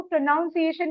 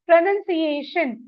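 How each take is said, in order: First: प्रोनाउंसिएशन said with "noun" as second syllable; mistaken pronunciation. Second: प्रोनाउंसिएशन said with a short "nun" as second syllable; correct pronunciation. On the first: Teacher warning students off a misreading, प्रोनाउंसिएशन with "noun" inside. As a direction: say प्रोनाउंसिएशन wrongly, as "pro-noun-see-AY-shun". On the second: Teacher showing students how to read उच्चारण's English word, प्रोनाउंसिएशन with "nun". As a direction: say प्रोनाउंसिएशन as "pro-nun-see-AY-shun". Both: Shown as a demonstration. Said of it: "इसको प्रोनाउंसिएशन नहीं पढ़ेंगे".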